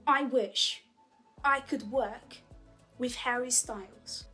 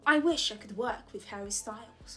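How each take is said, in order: First: The sentence is said at a slower pace. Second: The sentence is said at a faster pace.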